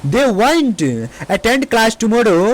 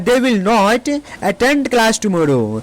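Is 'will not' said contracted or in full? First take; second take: contracted; full. First: 'Will not' is shortened into one syllable. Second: 'Will not' is said as two full words.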